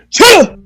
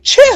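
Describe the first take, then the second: First: It is said in a deeper, chestier voice. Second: It is said in a lighter voice.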